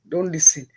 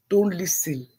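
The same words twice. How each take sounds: First: "Don't listen" repeated a bit louder, DON'T stressed; insistent "Don't listen" with the weight on DON'T; firmer repeat. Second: Said in the usual way. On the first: Shown as a demonstration. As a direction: lean on "Don't" the second time, like a warning.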